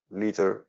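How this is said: It is said with an American accent.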